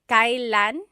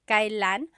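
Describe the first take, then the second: First: The word is said in its formal form. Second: The word is said in its formal form.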